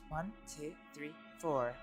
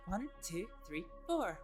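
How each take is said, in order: First: The pitch drops lower on the final word. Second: The pitch rises strongly on the final word. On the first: The character is in a serious mood. "I kind of drop it down a bit" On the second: The character is in a happy mood. "quite a strong upward inflection on the four"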